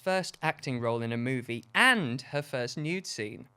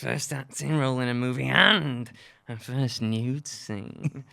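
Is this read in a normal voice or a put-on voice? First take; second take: normal; put-on. First: It is read in the speaker's normal voice. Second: It is read in a put-on character voice. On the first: The speaker calls it wrong. "I didn't do the voice" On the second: The speaker calls it right. "I'm gonna do it again, but with the voice"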